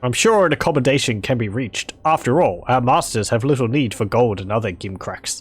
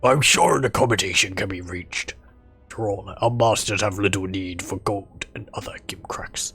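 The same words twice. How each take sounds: First: It is read in his normal voice. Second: It is read in a gruff trollish voice.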